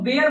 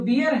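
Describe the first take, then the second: First: The vowel sounds like the one in 'bare'. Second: The vowel sounds like the one in 'beer'. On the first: It means the animal. "उसको बेयर बोलते हैं" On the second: It means to give birth. "ये जो बियर है"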